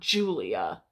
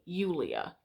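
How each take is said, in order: First: The name begins with a J sound. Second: The name begins with a Y sound. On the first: The speaker calls it wrong. "It's not Julia in Latin at all, ever" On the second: The speaker calls it right. "You're still going to pronounce it the same way"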